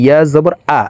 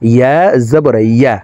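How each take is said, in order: First: The final syllable starts with a bare vowel. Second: The final syllable starts with a y-glide. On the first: The speaker calls it wrong. "আমরা অনেক ইয়ার উচ্চারণ সঠিকভাবে উচ্চারণ করে পড়তে পারি না ইয়া জবর আ এইভাবে পড়ে থাকি" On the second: The speaker calls it right. "ইয়ার উচ্চারণ জিহ্বার মধ্যখান থেকে পড়তে হবে"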